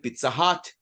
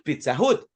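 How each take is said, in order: First: The vowel in 'Hut' sounds like 'o'. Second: The vowel in 'Hut' sounds like 'oo'. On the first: The speaker calls it right. "recuerden Pizza Hut" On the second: The speaker calls it wrong. "no es Pizza Hut"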